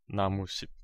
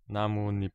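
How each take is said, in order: First: The second part begins with an sh sound. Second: The second part begins with an n sound. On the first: The speaker calls it wrong. "and not" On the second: The speaker calls it right. "like in this example"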